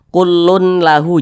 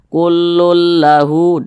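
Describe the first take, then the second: First: The n sound is pronounced separately before l. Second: The n sound merges straight into the l. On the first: The speaker calls it wrong. "Jangan dibaca kullun lahu" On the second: The speaker calls it right. "tapi langsung dimasukkan ke huruf lam"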